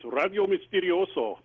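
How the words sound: The name is pronounced the Spanish way. "if you want to pronounce it like Spanish"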